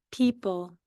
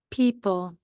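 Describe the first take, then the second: No difference in how they are said.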